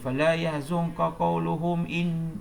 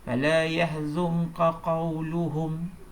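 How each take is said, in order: First: The reading runs on after qawluhum without stopping. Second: The reading stops fully after qawluhum. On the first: The speaker calls it wrong. "jangan kamu baca" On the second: The speaker calls it right. "berhenti. Kemudian baru sambung"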